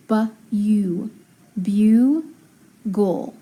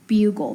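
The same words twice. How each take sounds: First: Bu-u, then bugle broken as byoo ... gul; sounded out. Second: Said in the usual way. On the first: Shown as a demonstration. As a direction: split bugle into long, separate syllables. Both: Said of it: "So it's gonna be open".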